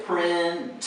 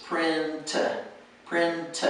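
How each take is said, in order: First: Print split into two syllables, a vowel after the t; wrong two-syllable print. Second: Print in one tight syllable, crisp t; print, one syllable ending on the t. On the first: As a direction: say print wrongly as prin-tuh. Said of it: "So don't say print". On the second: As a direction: clip print to a single beat. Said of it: "just make it one syllable". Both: Shown as a demonstration.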